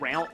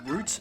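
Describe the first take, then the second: First: Route is said the non-Australian way. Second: Route is said the Australian way. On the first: "not route" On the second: "in Australia we pronounce that as route"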